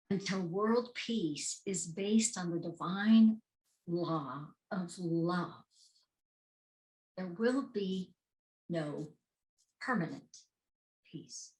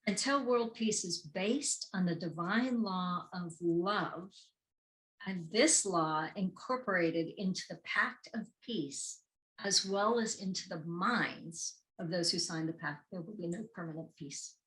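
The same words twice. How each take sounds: First: Slow, deliberate "divine law of love"; weighty repeated quote; slow emphatic reading. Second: Said in the usual way. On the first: Shown as a demonstration. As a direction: drop to a hush on "peace". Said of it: "repeats quote slowly for emphasis". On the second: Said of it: "first reading of the quote".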